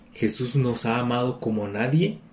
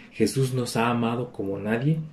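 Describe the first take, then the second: No difference in how they are said.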